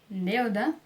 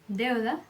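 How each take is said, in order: The two takes are said the same way.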